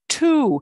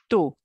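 First: The T is released with a strong puff. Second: The T is released softly without a puff. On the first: The speaker calls it wrong. "It's not two, two. You know, as we have a T in English" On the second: The speaker calls it right. "we're going to take the foot off the gas pedal with that letter T"

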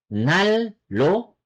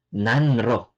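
First: The middle is pronounced as a double L. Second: The middle is pronounced as N then R. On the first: The speaker calls it right. "magiging ang pronunciation niya ay nal-lo" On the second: The speaker calls it wrong. "Not nan-ro"

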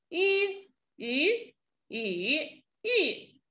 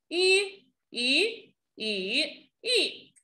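No difference in how they are said.

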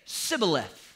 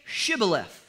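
First: The word begins with an s sound. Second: The word begins with a sh sound. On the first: The speaker is from the enemy people. The speaker calls it wrong. "because he couldn't pronounce the H" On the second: The speaker is from the guards' own people. The speaker calls it right. "Then say Shibboleth"

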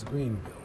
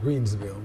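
First: No s sound comes before 'ville'. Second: An s sound comes before 'ville'. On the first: The speaker calls it right. "but it's Greenville" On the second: The speaker calls it wrong. "I think I said Greensville"

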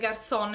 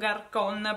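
First: The c is said like a soft s sound. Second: The c is said like a hard k sound. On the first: The speaker calls it right. "la C, è tipo francese" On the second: The speaker calls it wrong. "avevo detto garcon perché non avevo visto che c'era un trattino sotto la C"

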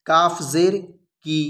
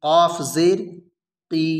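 The two takes are said the same way.

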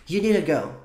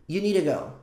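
Both takes have the same delivery.

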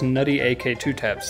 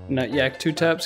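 First: The name is split as Nutty AK. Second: The name is split as Nut Yak. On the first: The speaker calls it right. "That's exactly how it is" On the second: The speaker calls it wrong. "that's what everybody on the internet says"

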